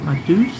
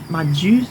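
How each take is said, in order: First: The word begins with a D sound. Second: The word begins with a J sound.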